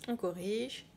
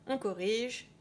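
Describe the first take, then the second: Both takes have the same delivery.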